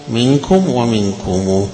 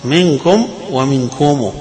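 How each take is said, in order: First: منكم then ومنكم ending minkumu, with a joined long u; second take. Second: منكم then ومنكم with a final u, منكمو; two readings. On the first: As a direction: slowly give ومنكم with the joined u. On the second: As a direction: contrast منكم plain with ومنكم ending minkumū. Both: Shown as a demonstration. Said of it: "قراءتان".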